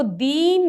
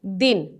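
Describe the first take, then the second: First: "दीन" with the ee drawn out long; wrong long vowel. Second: "दिन" with a short, quick i; short vowel. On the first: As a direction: stretch the vowel in "दीन" to double length. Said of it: "इसको दीन नहीं पढ़ेंगे". ("दीन" में ई को खींचकर लंबा बोलना) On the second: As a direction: say "दिन" briefly, no stretch on the i. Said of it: "इसको पढ़ेंगे दिन". ("दिन" में छोटी इ, बिना खींचे) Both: Shown as a demonstration.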